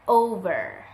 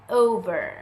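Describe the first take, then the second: No difference in how they are said.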